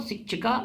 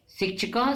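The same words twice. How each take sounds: First: "शिक्षिका" with a long final aa; plural ending. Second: "शिक्षकः" with a short final a before the breath; singular ending. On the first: Teacher reciting the plural for pupils, "शिक्षिका" with long final aa. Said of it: "और शिक्षिका यानी अनेक शिक्षक". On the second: Teacher reciting the singular for pupils, "शिक्षकः" with short final a. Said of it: "शिक्षक मतलब एक शिक्षक". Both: Shown as a demonstration.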